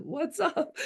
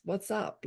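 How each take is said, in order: First: High-pitched, laughing quoted question; giggly mimicked catchphrase; amused imitation. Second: Quiet retold question; gentle asking. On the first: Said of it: "just like Jeff said". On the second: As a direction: ask it softly, inviting an answer. Retells asking daughter, her own take.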